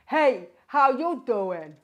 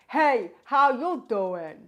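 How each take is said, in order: First: The voice sounds dark, deep and rich. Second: The voice sounds dark, deep and rich.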